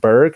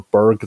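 First: The word is said the Australian way. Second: The word is said the South African way. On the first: The place is probably Australian. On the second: The place is probably South African.

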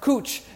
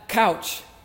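First: The vowel sounds like the one in boot. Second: The vowel sounds like the one in cow. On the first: The speaker calls it right. "it's pronounced cooch" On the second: The speaker calls it wrong. "and not couch"

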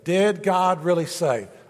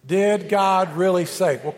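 First: It is said calmly with little emphasis. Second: It is said with more passion and energy. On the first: "Say that with me" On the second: "a little more passion"

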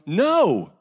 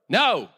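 First: It is a more defiant refusal. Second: It is a quick, plain refusal.

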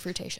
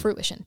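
First: The middle of the word sounds like 'tay'. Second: The middle of the word sounds like 'ish'. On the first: The speaker calls it wrong. "I used to say fruitation" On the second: The speaker calls it right. "I now say fruition the correct way"

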